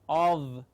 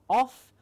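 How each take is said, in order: First: The word ends with a voiced v sound. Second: The word ends with a voiceless f sound. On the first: The speaker calls it right. "it is of" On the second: The speaker calls it wrong. "the correct pronunciation is not off"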